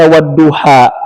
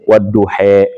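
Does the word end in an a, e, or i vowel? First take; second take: a; e. First: The final vowel is an open a sound. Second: The final vowel is a middle e sound. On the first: The speaker calls it wrong. "Mau dibaca wadduha, dia adalah ada wawunya, wawu kosam" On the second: The speaker calls it right. "Ambil jalan tengah jadi apa?"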